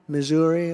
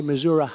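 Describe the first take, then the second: First: Said in the usual way. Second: "Missouri" ending in uh, like Mizzou-ruh; local pronunciation of Missouri. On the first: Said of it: "They do say it that way". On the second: Shown as a demonstration. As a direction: end "Missouri" on -ruh rather than -ree. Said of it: "or as they say".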